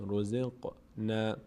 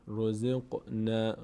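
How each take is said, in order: No difference in how they are said.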